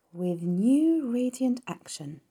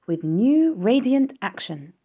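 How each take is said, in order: First: Very slow, higher, pondering repetition; slow repeating. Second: Slow, higher read-out of a slogan. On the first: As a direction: draw the words out at half speed. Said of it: "repeated Charlotte slowly". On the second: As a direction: read the words out slowly and clearly. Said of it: "Charlotte read the words". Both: A narrator's reading.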